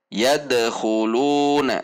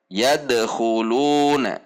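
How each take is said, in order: Both takes have the same delivery.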